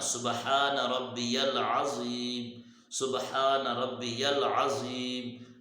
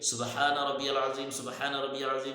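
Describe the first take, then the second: First: There is a clear pause between the repetitions. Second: Both repetitions run together in one breath.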